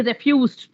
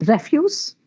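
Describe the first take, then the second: First: "refused" as a verb, FUSED stressed; re-FUSED, weight on the end of "refused"; stress on second syllable. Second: "Refuse" as a noun, REF stressed; REF-use, weight on the start of "Refuse"; stress on first syllable. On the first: Teacher shifting stress to make a verb, second-syllable stress. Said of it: "Now just shift the syllable". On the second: Teacher giving noun examples, first-syllable stress. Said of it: "If the stress is on the first syllable". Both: Shown as a demonstration.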